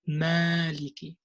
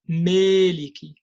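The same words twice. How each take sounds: First: The long 'a' vowel stays a pure open 'a'. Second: The long 'a' vowel drifts toward an 'ee' sound. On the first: The speaker calls it right. "We have to say maliki" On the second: The speaker calls it wrong. "We don't say maliki, me. We don't say that"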